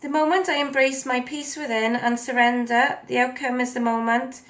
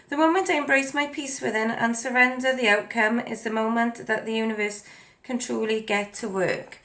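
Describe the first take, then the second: First: Stiff, mechanical reading; robot voice. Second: Said in the usual way. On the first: Real, not acted. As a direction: read it like a robot, no feeling. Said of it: "I'm speaking like a robot today". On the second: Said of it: "I'm gonna say it again".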